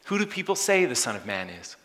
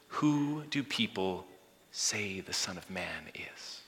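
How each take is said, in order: First: Said in the usual way. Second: Slow, soft, fading to a whisper; hushed question. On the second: Acted. Preacher voicing Jesus asking disciples, slow hushed whisper.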